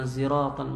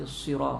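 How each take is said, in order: First: It begins with a z sound. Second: It begins with an emphatic s sound. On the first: "ada yang ziratan" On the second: "ada yang baca sira sad"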